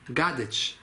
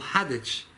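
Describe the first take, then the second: First: The name begins with a hard G sound. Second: The name begins with an H sound. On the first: This is how it is said in Russia. "In Russia it's called Gadich because they don't say the hey" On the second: This is how the community says it. "We call Hadich"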